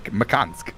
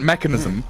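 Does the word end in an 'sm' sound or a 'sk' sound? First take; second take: sk; sm. First: The word ends with an 'sk' sound. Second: The word ends with an 'sm' sound. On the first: This is how Scandinavian players said the name. "They didn't like the M at the end" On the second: This is the usual way of saying the name. "It wasn't mechanism"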